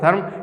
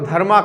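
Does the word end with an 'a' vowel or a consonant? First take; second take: consonant; vowel. First: The word ends on the 'm' consonant. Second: The word ends with a final 'a' vowel. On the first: This is how it is said in Hindi. "Hindi में बात करेंगे तो धर्म" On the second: This is how it is said in English. "English में बात करते हैं, इसको धर्मा कहा जाता है"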